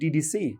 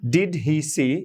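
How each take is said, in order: First: The words run quickly together, like DDC. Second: Each word is said fully and separately.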